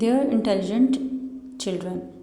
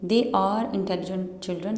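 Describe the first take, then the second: First: 'They are' is squeezed into one syllable. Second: 'They are' is said as two full syllables.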